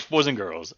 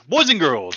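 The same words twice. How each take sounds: First: Said in the usual way. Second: Loud, high, emphatic greeting; excited emphasis. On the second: Shown as a demonstration. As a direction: call it out with energy. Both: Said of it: "boys and girls out there".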